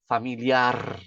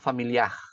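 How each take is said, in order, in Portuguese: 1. O R final é uma vibração da ponta da língua. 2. O R final é um som gutural, no fundo da garganta. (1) "Essa é a dica para pronunciar em espanhol" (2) "está colocando um J ou um G no final"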